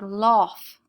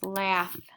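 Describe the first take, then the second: First: The vowel is an 'aw' sound. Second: The vowel is a short 'a' sound. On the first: The speaker calls it wrong. "So we would pronounce this word lof, but that's not how we talk" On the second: The speaker calls it right. "making the short A sound"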